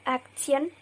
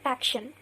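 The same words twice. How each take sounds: First: Action with a clear t sound, ak-tun; the wrong way first, action as ak-tun; unmerged t. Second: Action said ak-shun, t and y fused to sh; the right way, action as ak-shun; merged sh. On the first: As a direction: say action with a hard t before the ending, ak-tun. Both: Shown as a demonstration. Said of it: "we say it as action".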